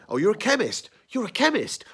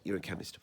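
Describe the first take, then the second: First: High, loud hammed-up exclamation; mock overplaying. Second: Said in the usual way. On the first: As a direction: overact it like a bad stage player. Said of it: "they're overplaying".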